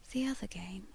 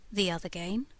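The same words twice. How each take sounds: First: Soft, slow, unvoiced whisper; ghostly lady whispering the words. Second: Said in the usual way. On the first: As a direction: breathe it out slowly like a secret. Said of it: "she said slowly". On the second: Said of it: "I asked".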